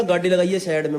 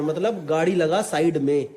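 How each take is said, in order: First: Put-on Haryanvi accent. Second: Said in the usual way. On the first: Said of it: "एकदम खड़ी हरियाणी में बोला".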